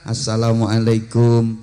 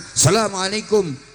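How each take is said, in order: First: It is said softly at a low pitch. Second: It is said loudly at a high pitch.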